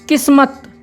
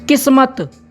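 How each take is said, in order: The two takes are said the same way.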